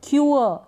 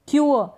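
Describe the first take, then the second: No difference in how they are said.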